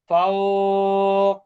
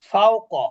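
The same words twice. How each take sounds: First: The vowel is lengthened. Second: The vowel is kept short. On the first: The reader stops on the word. "এখন কিন্তু মাদ হবে" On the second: The reader does not stop on the word. "এখানে কিন্তু কোনোটাতে আমি মাদ করি নাই"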